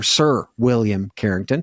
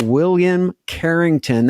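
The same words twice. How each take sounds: First: A lightly put-on posh title; hint of a toff voice; mock proper gentleman. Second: Said in the usual way. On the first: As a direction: play it up like landed gentry. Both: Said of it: "That sounds really proper".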